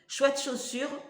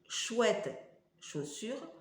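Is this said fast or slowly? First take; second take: fast; slowly. First: The words are said quickly. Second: The words are said slowly. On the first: "il faut que je le dise plus vite" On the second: "même en disant lentement"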